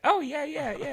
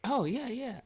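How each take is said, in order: First: Put-on much higher and louder "Oh, yeah, yeah, yeah" in her accent; exaggerated imitation of her accent; Asian accent imitation. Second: Put-on high, clipped Asian-accented "Oh, yeah, yeah"; mild imitation of her accent. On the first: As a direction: repeat her accent more hammed-up. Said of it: "that's the way she said it". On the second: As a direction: mimic her accent lightly. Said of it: "I said it like that because she's Asian".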